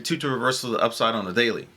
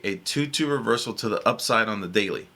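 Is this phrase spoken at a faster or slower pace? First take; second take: faster; slower. First: It is spoken at a normal, quicker pace. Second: It is spoken at a slower pace.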